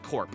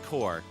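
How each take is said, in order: First: The word ends with a P sound. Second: The word ends without a P sound. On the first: The speaker calls it wrong. "I just was pronouncing them like corp" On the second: The speaker calls it right. "is actually just pronounced core"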